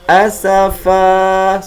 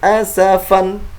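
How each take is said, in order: First: The word ends with a long vowel, no n. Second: The word ends with a short vowel plus n. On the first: The reciter stops at the end of the verse. The speaker calls it right. "tanwinnya dihilangkan dan diganti dengan atau dibaca dengan panjang" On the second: The reciter carries on without stopping. The speaker calls it wrong. "bukan dibaca dengan asafan"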